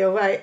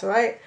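First: Casual Cornish "All right" with a falling tune; Cornish greeting. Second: Cornish "All right?" with a rising tune; Cornish greeting question. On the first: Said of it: "you always say". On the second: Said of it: "as they pass". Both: Retold or imitated.

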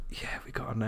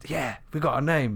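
First: Much softer, voice nearly gone; quiet, half-hearted regret; deflated repeat. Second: Mildly upbeat, slightly lifted voice; a touch of triumph at having a name; pleased with the find; pleased announcement. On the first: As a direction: mutter it with the excitement drained away. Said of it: "Six months down the line". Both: Retold or imitated.

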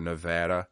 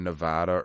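First: Nevada said ne-VAD-a, middle as in "cat"; Nevada with short A. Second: Nevada said ne-VAH-da. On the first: Host offering another pronunciation, Nevada with short "a" as in "cat". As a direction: say Nevada with a flat "a" as in "had". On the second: Host unsure how to pronounce the state, Nevada with an open "ah". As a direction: say Nevada with a broad "ah" in the middle. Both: Shown as a demonstration. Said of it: "however the fuck you're supposed to pronounce it".

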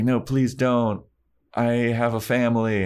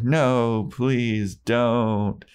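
First: Lightly acted begging, pitched up; quick higher-pitched retold plea; mock plea. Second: Slow, stretched, higher begging; drawn-out mock plea. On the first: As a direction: plead for mercy, half-hearted. Acting Daniel pleading for life. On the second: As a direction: draw out each word of a hammy plea. Daniel pleads a second time.

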